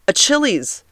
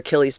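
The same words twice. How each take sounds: First: The middle consonant is a 'ch' sound. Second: The middle consonant is a 'k' sound. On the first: The speaker calls it wrong. "I understand it's spelled C-H" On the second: The speaker calls it right. "I know that this is called your Achilles tendon"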